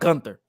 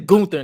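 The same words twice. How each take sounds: First: The first syllable sounds like 'gun'. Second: The first syllable sounds like 'goon'. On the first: The speaker calls it wrong. "not Gunther" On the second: The speaker calls it right. "it sounds better when I say Gunther"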